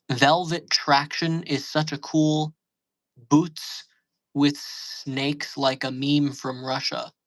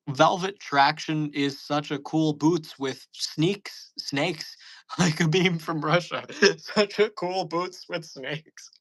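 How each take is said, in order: First: Slow reading. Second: Slow, breaking into laughter; laughing read-through. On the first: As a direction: slowly read out, word by word. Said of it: "That sounds like some shit". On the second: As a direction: read it again but crack up. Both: Shown as a demonstration.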